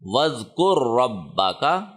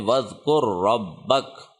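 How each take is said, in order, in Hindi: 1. आख़िरी शब्द एक छोटे स्वर पर ख़त्म होता है। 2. आख़िरी शब्द एक व्यंजन पर ख़त्म होता है।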